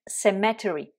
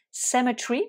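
First: CEMETERY with every syllable, "SEM-eh-teh-ree"; American "cemetery", full -ery ending, falling; American pronunciation. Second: CEMETERY in three syllables, "SEM-uh-tree"; British "cemetery", silent second-last e, higher pitch; British pronunciation. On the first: Teacher contrasting it with British for learners, American cemetery pronunciation. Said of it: "et en anglais américain". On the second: Teacher showing French learners the British cemetery, silent-letter pronunciation. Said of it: "En anglais britannique". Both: Shown as a demonstration.

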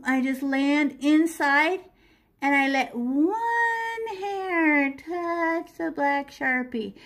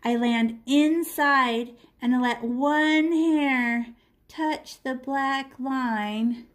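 First: Slow, deliberate repeat; walk the student through it slowly; drawn-out instruction; slow demo again. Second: Slow, careful instruction; drawn-out teaching voice; slow demo. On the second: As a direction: spell it out slowly for the student. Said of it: "this is how we outline all of our windows". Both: Shown as a demonstration.

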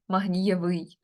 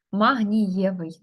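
First: МагнієвИЙ, stress shifted onto the last syllable; wrong final stress. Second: МагнІєвий, slow, stressed on НІ; correct stem stress. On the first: Teacher showing a misplaced stress, магнієвий stressed on its ending. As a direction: say магнієвий wrongly, leaning on -ВИЙ. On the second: Teacher giving the example, магнієвий slowly stressed inside the stem. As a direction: draw out магнієвий with the weight on НІ. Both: Shown as a demonstration. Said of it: "наголос не там".

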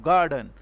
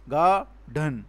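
First: Said in the usual way. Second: "Garden" broken into two beats, ga and dhan; "Garden" pulled apart as ga, dhan; split into syllables. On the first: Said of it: "One is ga and the other". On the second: Shown as a demonstration. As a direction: say "Garden" syllable by syllable, with a gap between. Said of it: "One is ga and the other is dhan".

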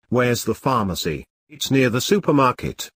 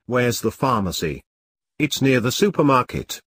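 The two takes are said the same way.

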